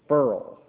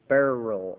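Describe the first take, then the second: First: The word is said as one syllable. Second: The word is said as two syllables. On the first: "pronounced Burl" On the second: "or Beryl"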